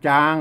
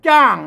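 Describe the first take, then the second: First: The syllable is said with a level mid tone. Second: The syllable is said with a falling tone. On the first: "จางเสียงสามัญ" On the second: "ใส่ไม่โทจ้าง ... เสียงโทนะครับ"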